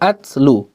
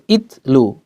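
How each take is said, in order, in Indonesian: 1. Kata itu diawali dengan vokal a. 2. Kata itu diawali dengan vokal i. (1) "bukan uh, atslu" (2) "Bukan itlu"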